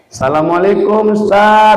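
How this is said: The greeting sounds calm and steady.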